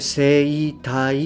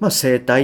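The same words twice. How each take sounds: First: The first syllable has a clear 'ei' sound. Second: The first syllable is a long 'e' sound. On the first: "わざわざ言わずに" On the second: "伸ばしちゃいますよね"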